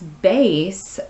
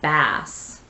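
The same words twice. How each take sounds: First: The vowel is a long A, like base. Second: The vowel is a short A, like mass. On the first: It names a musical instrument. "when it's bass, uh, that is an instrument" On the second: It names a kind of fish. "there's a short A there"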